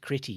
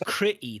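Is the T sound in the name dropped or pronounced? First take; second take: pronounced; dropped. First: The T sound in the middle is pronounced. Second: The T sound in the middle is dropped. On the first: The speaker calls it wrong. "that's not how we pronounce his name" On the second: The speaker calls it right. "There's no T in it"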